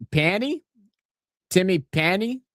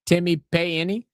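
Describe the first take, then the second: First: Timmy Panny said with a flat a as in pan, questioning rise; unsure pronunciation. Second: Timmy pay any, Payne split into pay then any, rising; trying another pronunciation. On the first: Streamer testing a Māori name, questioning rise. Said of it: "Am I saying that right?". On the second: Checking the name aloud with chat, unsure rise. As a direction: sound out pay any syllable by syllable. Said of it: "Is it like pay any?". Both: Shown as a demonstration.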